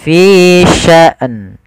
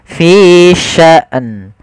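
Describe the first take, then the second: No difference in how they are said.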